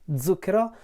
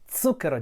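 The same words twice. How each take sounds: First: The first consonant is a voiced buzzing z. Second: The first consonant is a voiceless hissing ts. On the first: This is how people in the north usually say it. The speaker calls it wrong. "I say it zucchero, which is probably the wrong way to say it ... with the Z voiced Z" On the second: This is how people from Rome or Florence southward say it. The speaker calls it right. "just as I said it right now, with the unvoiced Z"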